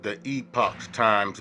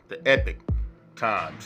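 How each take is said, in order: First: The second syllable sounds like 'pock'. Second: The second syllable sounds like 'pick'. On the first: The speaker calls it wrong. "it would seem like you would pronounce it saying" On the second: The speaker calls it right. "it's really pronounced"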